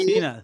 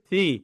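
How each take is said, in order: First: The consonant is a hissing s sound. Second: The consonant is made with tongue at teeth. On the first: The speaker calls it wrong. "না" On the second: The speaker calls it right. "এগুলো জীব, দাঁত দাঁতের"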